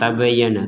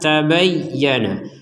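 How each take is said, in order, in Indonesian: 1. Bunyi y pendek dan tidak ditekan. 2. Bunyi y digandakan dan ditekan. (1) "bisa dikatakan juga tidak ada tekanan" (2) "Jadi harus ditekan"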